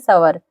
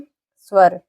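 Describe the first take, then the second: First: A full vowel separates the s and v. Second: The s joins the v with no vowel. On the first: The speaker calls it wrong. "ना कि सवर" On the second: The speaker calls it right. "ये अगर आधा स है तो इसको आधा ही पढ़ेंगे"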